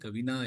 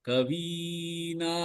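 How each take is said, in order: First: The vowel after 'kav' is short. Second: The vowel after 'kav' is long. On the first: The speaker calls it wrong. "கவினா இல்ல" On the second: The speaker calls it right. "இந்த வி வந்து நெடிலெழுத்து"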